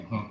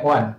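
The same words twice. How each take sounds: First: “远” as in 真远, colloquial seventh tone; colloquial reading. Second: “远” as in 永远, literary second tone; literary reading. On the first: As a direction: say “远” the spoken way, tone seven. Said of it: "真远的". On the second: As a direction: say “远” the reading way, tone two. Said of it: "永远的". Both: Shown as a demonstration.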